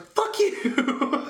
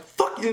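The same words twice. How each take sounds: First: High, drawn-out yell breaking into laughter; comic exasperated outburst; escalated mock fury. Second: Raised-pitch mock anger; quick, mildly heated retort; retold angry curse. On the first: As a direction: curse them out at full pitch. Caller repeats curse, escalated. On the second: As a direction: curse out the rep, first go. Retold caller cursing the rep.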